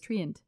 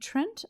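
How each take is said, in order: First: It is said as two syllables, Tree-ant. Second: It is said as one syllable, Trent. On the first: "I've always been pronouncing this Treant" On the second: "Are you saying Trent?"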